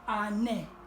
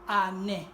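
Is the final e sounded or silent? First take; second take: sounded; sounded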